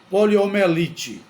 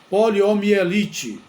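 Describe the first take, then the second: First: The middle syllable lacks the i sound. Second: The middle syllable has an i sound. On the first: The speaker calls it wrong. "muita gente pronuncia poliomielite, poliomielite, sem o i" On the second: The speaker calls it right. "O nome correto é poliomielite"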